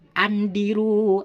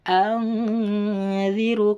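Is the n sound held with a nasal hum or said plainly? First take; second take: plain; nasal hum. First: The n is said plainly without a nasal hum. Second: The n is held with a long nasal hum. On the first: The speaker calls it wrong. "tidak boleh andiru" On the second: The speaker calls it right. "karena nun mati bertemu dengan zal"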